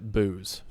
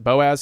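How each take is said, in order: First: The name is said as one syllable, like booze. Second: The name is said as two syllables, Bo-az. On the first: "he pronounces it Booze" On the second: "he also doesn't pronounce it Boaz"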